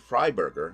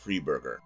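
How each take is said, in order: First: The first syllable sounds like 'fry'. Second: The first syllable sounds like 'free'. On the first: The speaker calls it right. "It's supposed to be Freiberger" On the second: The speaker calls it wrong. "not Freeburger"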